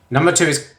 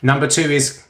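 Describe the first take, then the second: No difference in how they are said.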